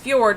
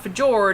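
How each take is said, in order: First: The j is said like a y sound. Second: The j is said as a hard j sound. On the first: The speaker calls it right. "the J is pronounced like a Y. It's fjord" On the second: The speaker calls it wrong. "not fjord"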